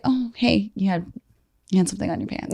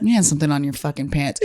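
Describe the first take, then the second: First: Softer, gentle flirt about a stain; understated flirty tone; soft flirty hint. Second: Coarse, laughing, buddy-style callout; blunt rough delivery. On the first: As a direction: murmur it sweetly, as a flirt would. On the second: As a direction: say it like a rude friend, not a flirt. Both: Shown as a demonstration. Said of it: "it's also the delivery".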